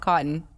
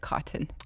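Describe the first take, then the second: First: The T sounds are swallowed, not fully released. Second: Both T sounds are fully and crisply pronounced. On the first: "It's not cotton" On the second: "the double T's and anything. Get both of them"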